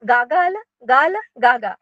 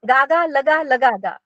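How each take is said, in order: First: The syllables are grouped as gagal, gal, gaga. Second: The syllables are grouped as gaga, laga, laga, ga. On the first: The speaker calls it right. "त्याचे व्यवस्थित उच्चार करा" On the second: The speaker calls it wrong. "कोणी काय करतं, गागा लगा लगा गा असं पण म्हणतं"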